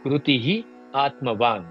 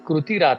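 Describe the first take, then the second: First: The two words are said separately. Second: The words are joined with an r sound. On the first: "कृती आत्मवान असं म्हणायचं नसेल" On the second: "तर कृतीरात्मवान"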